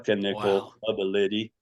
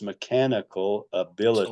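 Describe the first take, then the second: First: Each word is stressed on first and third syllables. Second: Each word is stressed on its second syllable. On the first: The speaker calls it wrong. "stress the first and third" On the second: The speaker calls it right. "stressing the second of each of four syllables"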